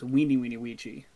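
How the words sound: The V sounds are said as W sounds.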